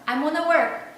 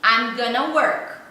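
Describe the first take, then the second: First: It is said faster, with 'gonna' squeezed further. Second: 'Going to' is shortened to 'gonna'. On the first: This is how natives say it at work, in a hurry. "ele vai falar mais rápido ainda" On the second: This is how natives say it in everyday speech. "no dia a dia, ele vai falar assim"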